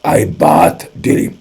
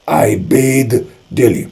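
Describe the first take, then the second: First: "bath" said slowly as "baat", open a vowel; slow British "I bath daily", bath with a short a; British pronunciation. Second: "bathe" said slowly as "bayd", long ay vowel; drawn-out American "I bathe daily", bathe with ay; American pronunciation. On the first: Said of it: "British वाला क्या बोलेगा?". ("bath" को "बाथ" की तरह धीरे बोलें) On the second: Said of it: "American English वाला बोलेगा". ("bathe" को "बेद" की तरह धीरे बोलें) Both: Shown as a demonstration.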